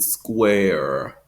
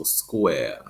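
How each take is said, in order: First: "square" with a long rounded R; rhotic square. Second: "square" as SQUAY-uh; schwa ending. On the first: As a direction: hold the American R in "square". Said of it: "rounded square sound". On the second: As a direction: end "square" on uh, no R. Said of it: "replaced by a schwa". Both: Shown as a demonstration.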